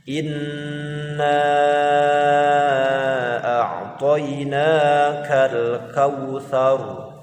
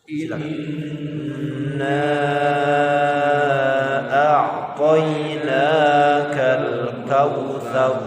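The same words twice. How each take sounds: The two takes are said the same way.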